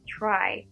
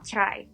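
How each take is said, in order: First: The TR has only a slight CH-like sound. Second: The TR has a strong, exaggerated CH-like sound. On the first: The speaker calls it right. "agak slight aja gitu C H R-nya kayak try" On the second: The speaker calls it wrong. "not try"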